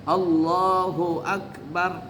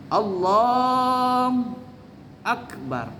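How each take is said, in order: First: The syllable 'hu' is clearly heard in Allahu. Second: The syllable 'hu' is dropped from Allahu. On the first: Every part must be heard. The speaker calls it right. "harus terdengar semuanya. Allahu Akbar, harus seperti itu" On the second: This imitates how another person recited it. The speaker calls it wrong. "hu-nya dia hilangkan"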